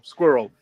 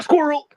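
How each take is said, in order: First: Said in the usual way. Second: Sudden high excited squirrel shout; Doug the dog voice. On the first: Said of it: "just go". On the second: Retold or imitated. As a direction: blurt it out high and loud like a distracted dog. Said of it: "Doug's is the best one".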